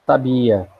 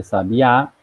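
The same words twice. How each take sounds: First: Sabia with the stress on the middle syllable, sa-BI-a. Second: Sabiá with the stress on the final A, sa-bi-Á; sabiá, open stressed A at the end; stress on the last syllable. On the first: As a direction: say sabia as three syllables, leaning on BI. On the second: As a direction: land the stress hard on the A of sabiá. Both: Shown as a demonstration. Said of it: "diferente de sabiá".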